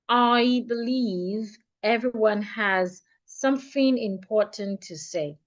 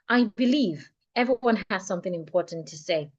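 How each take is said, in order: First: The sentence is spoken at a much slower pace. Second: The sentence is spoken at a comfortable, moderate pace. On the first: "I'm going to go fifty percent slower" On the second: "at a pace that I feel is more comfortable to me"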